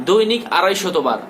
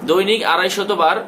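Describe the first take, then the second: Both takes have the same delivery.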